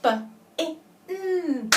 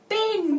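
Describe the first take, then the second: First: B, I, N said as separate letter sounds; sounded out. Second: Said in the usual way. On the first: Shown as a demonstration. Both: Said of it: "Can you sound out bin?".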